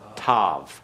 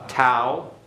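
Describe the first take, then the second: First: The name ends in a V sound. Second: The name ends in a vowel sound.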